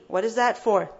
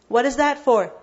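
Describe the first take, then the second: First: Said in the usual way. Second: What is that for, asked again with more force on that; insistent teacher repeat; louder repeat of the question. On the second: Shown as a demonstration. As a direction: press the question home. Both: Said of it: "There's so much emphasis in this ayah".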